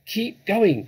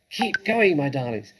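First: High, loud order; shouted. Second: Breathless, urging his family on; panting. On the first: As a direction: shout it over to the others. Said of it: "the fat Boggis shouted". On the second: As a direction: pant the words out. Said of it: "panted Mister Fox". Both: A narrator's reading.

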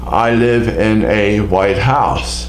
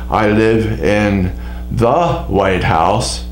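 First: Slow, with weight on "a white house" as an ordinary house; slow careful example. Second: Slow, with weight on "the White House" as the famous building; slow careful example. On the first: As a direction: spell out "a white house" slowly and evenly. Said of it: "Also, I can say". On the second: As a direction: lean on "the White House", said slowly. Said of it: "Now, if I were to say". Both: Shown as a demonstration.

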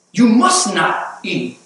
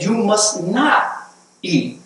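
First: Slow, heavy "must" in "You must not eat"; stress on MUST. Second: Slow, heavy "not" in "You must not eat"; stress on NOT. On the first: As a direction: press on "must" like a prohibition. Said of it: "The enemy's emphasis is on restriction". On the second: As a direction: lean hard on "not", drawn out and restrictive. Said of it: "understand the emphasis". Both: Shown as a demonstration.

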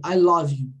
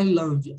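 First: "love" said as "lov" in "I love you"; English pronunciation. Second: "love" said as "lah-vee"; wrong vowel. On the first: Teacher giving the right way, English pronunciation. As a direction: round the vowel in "love". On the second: Teacher ruling out a reading, mispronounced. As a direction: misread "love" with an open "a". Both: Shown as a demonstration. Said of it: "não é I love".

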